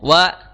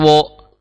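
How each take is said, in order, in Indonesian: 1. Vokalnya adalah 'a' terbuka yang biasa. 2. Vokalnya adalah 'o' yang dibulatkan. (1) "wa, wa, jangan wo" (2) "jangan wo, mentang-mentang ro"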